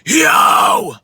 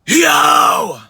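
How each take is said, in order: First: It is screamed at a middle pitch. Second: It is screamed at a middle pitch.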